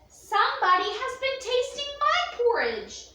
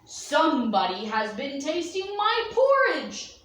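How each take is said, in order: First: It is said in a medium-sized voice. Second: It is said in a big bear's voice.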